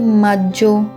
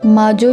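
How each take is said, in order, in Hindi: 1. बीच की 'g' ध्वनि लंबी और ज़ोरदार है। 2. बीच की 'g' ध्वनि छोटी और हल्की है। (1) "क्योंकि इसके अंदर दो जी आते हैं" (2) "माजो इसको नहीं पढ़ेंगे"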